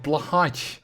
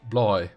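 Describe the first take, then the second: First: The name is said with an American English pronunciation. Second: The name is said with a Swedish pronunciation. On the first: "I'm probably mispronouncing it" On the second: "if I was gonna go Swedish"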